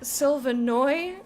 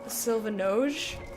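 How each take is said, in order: First: The J is pronounced like a Y sound. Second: The J is pronounced like a J sound. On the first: "which some languages the J is a Y" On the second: "with the J sound"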